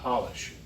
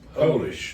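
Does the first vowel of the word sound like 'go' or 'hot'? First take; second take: hot; go. First: The first vowel is short, as in 'hot'. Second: The first vowel is long, as in 'go'. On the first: It is a substance for shining things. The speaker calls it wrong. "not Polish" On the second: It comes from Poland. The speaker calls it right. "it's from Poland. It's Polish"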